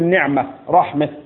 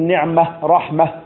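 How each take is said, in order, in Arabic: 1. الصوت الأخير مائل نحو الكسر، والهاء ضعيفة. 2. الصوت الأخير فتحة صريحة. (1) "صوتها ضعف" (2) "بالفتح"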